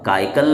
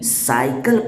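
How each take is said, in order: First: The word begins with a k sound. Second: The word begins with an s sound. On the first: The speaker calls it wrong. "काइकल नहीं" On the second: The speaker calls it right. "साइकिल पढ़ना है"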